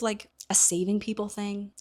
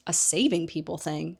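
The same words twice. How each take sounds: First: Said in the usual way. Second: Harry echoing Hermione's words in disbelief, rising at the end; incredulous echo. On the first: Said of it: "She's like". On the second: Retold or imitated. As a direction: repeat it back in disbelief, rising. Harry echoes her words in disbelief.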